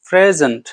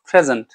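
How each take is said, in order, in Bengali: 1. শব্দটি টেনে দীর্ঘ করে বলা হয়েছে। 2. শব্দটি ছোট করে বলা হয়েছে, দীর্ঘ করা হয়নি।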